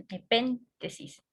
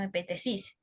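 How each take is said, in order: First: Epéntesis said the right way, stressed on pén: e-PÉN-te-sis, slowly; correct stress. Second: Epentesis said the wrong way, stressed on te: e-pen-TE-sis. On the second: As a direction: say epentesis softly with the stress on the third syllable, as the mistake. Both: Shown as a demonstration. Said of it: "El acento está en la E de la P".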